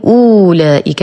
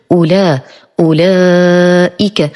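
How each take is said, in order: First: أولئك with the opening u wrongly drawn out long; mispronunciation demo. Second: أولئك with a short u, then a long drawn laa; correct pronunciation. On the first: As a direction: stretch the first vowel of أولئك into "oo". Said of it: "ولا أقول أولئك". (أولئك بمد ضمة الهمزة خطأً) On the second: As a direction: say أولئك with only a short damma on the hamza. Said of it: "أنطق فقط ضمة الهمزة". (أولئك بضمة قصيرة على الهمزة دون مد) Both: Shown as a demonstration.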